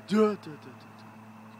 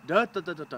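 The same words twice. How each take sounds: First: "duh" sinking to a near-whisper too fast; dropping too low. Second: "duh" stepping down just a little, kept loud; each "duh" dips gently, stays strong; slight descent. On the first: Coach showing the student the wrong way. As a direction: let the "duh" fall away and fade out. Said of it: "don't lower it too much". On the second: Coach showing the student the right way. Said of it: "lower it just a little bit". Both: Shown as a demonstration.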